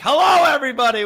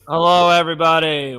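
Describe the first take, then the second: First: It is said with high energy. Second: It is said with low energy.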